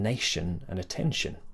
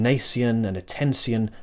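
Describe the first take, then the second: First: The endings are said as one shun syllable. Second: The endings have a separate s-like syllable. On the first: This is how it is said now. "rather than" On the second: This is how it used to be said. "it wasn't that long ago that we were saying"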